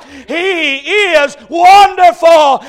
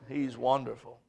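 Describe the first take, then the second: First: Loud, high, slow shout of wonderful; shouted climax. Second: He's wonderful dropped low and soft; hushed after the shout. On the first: Preacher to congregation at the climax, a loud slow shout. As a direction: ring it out at the peak. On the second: Preacher quieting the church after the shout, soft and low. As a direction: pull back to a near hush. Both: Acted. Sermon climax then hush.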